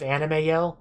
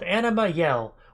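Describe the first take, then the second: First: The first word ends in an 'ay' sound. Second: The first word ends in an 'ah' sound. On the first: The speaker calls it wrong. "I'm going to mispronounce as Anime Yell" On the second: The speaker calls it right. "something called Anima Yell"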